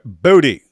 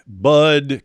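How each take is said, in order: First: The name is two syllables with pronounced final E. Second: The name is one syllable with silent final E. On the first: "if you pronounced it the way it looks" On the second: "E could be silent"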